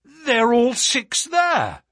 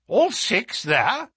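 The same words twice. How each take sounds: First: High, loud, drawn-out call; excited announcement. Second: High, slow, astonished echo; agitated question. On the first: Narrator tells the Colonel all horses are running, calling out. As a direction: call it out as a definite statement. Narrator calls out sighting at racecourse. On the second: Colonel hears all six horses are running, agitated disbelief. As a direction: query it in agitation, rising at the end. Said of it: "cried the Colonel in great agitation". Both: Acted.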